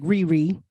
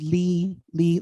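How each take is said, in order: First: The name is said with R sounds. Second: The name is said with L sounds. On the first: "more of a R, like Riri" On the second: "with a L"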